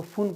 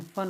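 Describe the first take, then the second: First: फुन with a short "u" as in "put"; learner's spelling reading. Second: फन with a short "uh" vowel; proper F-U-N reading. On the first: Teacher showing how beginners sound it out, short-u फुन. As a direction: read फुन letter by letter, u as oo. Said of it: "वो सीखने का तरीका होता है". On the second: Teacher showing beginners what F-U-N becomes, uh-vowel फन. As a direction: say फन like English "fun". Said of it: "F यू N फन हो जाता है". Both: Shown as a demonstration.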